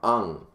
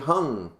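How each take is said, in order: First: The name starts with a vowel sound. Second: The name starts with an H sound. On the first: The speaker calls it right. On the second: The speaker calls it wrong.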